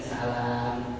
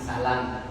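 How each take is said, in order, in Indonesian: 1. Vokal setelah l panjang. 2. Vokal setelah l pendek. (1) "beda dengan salam" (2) "lamnya itu pendek"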